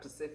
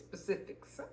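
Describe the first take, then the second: First: The word starts without an initial s sound. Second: The word starts with an initial s sound. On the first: The speaker calls it wrong. "It's not Pacific" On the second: The speaker calls it right. "It's specifics"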